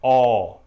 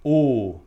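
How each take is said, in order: First: The vowel is open, with the mouth wider. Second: The vowel is closed, with lips rounded tight.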